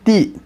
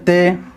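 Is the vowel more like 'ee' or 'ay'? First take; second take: ee; ay. First: The vowel sounds like 'ee'. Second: The vowel sounds like 'ay'. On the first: The speaker calls it right. "तो मारूफ पढ़ना है" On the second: The speaker calls it wrong. "इस तरह मजहूल नहीं पढ़ा जाएगा"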